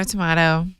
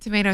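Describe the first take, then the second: First: "tomato" with an open "mah"; tomato, British way. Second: "Tomato" with a long "may"; tomato, American way. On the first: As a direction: say "tomato" as tuh-MAH-toh. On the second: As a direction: say "Tomato" as tuh-MAY-toh. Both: Shown as a demonstration. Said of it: "trying to think of other things".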